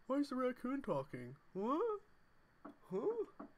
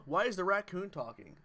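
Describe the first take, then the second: First: Put-on high, puzzled girlfriend voice; impression of girlfriend. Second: Said in the usual way. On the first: Streamer mimics girlfriend asking about a talking raccoon, high and baffled. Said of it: "She'd be like". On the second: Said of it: "That's another good one".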